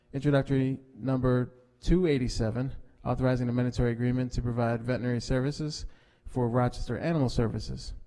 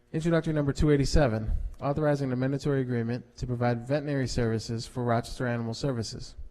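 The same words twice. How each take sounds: No difference in how they are said.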